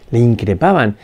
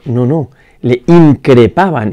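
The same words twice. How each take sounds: First: Said in the usual way. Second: "increpaban" drawn out slowly and louder; stress on increpaban. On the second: Shown as a demonstration. Preacher insisting to the congregation on "increpaban", slow and louder. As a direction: lean hard on "increpaban", slow and firm. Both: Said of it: "no es le indicaron que se callara un poquito".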